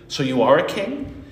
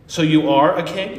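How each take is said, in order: First: It sounds intrigued and curious. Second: It sounds sincere and genuine.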